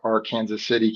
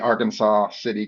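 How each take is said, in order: First: Arkansas is not said like the state name. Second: Arkansas is said like the state name. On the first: This is how people in the town say it. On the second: This is how someone from the state of Arkansas would say it.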